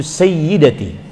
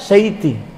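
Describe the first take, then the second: First: The word is said slowly with every syllable. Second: The word is said fast with a syllable dropped.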